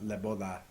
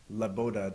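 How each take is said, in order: First: The d in boda sounds like soft th. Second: The d in boda is a hard d. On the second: "Like I would say"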